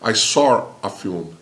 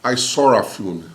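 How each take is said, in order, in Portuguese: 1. Sotaque britânico, com um R ligando saw e a. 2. Sotaque britânico, com um R ligando saw e a.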